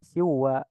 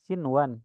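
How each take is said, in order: First: The n sound merges into the following w. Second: The n sound is pronounced clearly before w. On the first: The speaker calls it wrong. "Kalau idgham dibacanya siwa, siwa dimasukkan ke huruf setelahnya" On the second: The speaker calls it right. "dibaca jelas sinwan"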